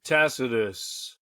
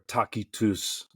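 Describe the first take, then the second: First: Said in the usual way. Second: Tacitus with hard k, as TAH-kee-toos; Latin pronunciation. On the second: Shown as a demonstration. Host giving the author's Latin name, Tacitus said with hard k. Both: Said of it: "as his Latin name would be pronounced".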